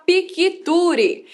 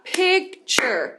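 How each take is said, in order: First: Piquiture with an added i between k and t; wrong extra syllable. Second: Picture in two syllables, pik-cher; picture said slowly in two clear beats; correct two beats. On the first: Teacher showing students the mistaken pronunciation. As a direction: piquiture split into four syllables. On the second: Teacher giving the right picture after the wrong one. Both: Shown as a demonstration. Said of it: "mas na verdade vai falar picture".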